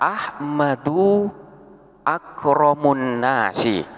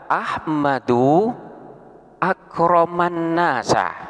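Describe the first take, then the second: First: The middle word ends in u, the last in i. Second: The middle word ends in a, the last in a. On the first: Ahmad is the noblest of people. "hukum daripada mudhof ilaih harus dibaca jer, sehingga di sini dibaca akromun nasi" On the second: Ahmad honored the people. "bacaan yang kedua"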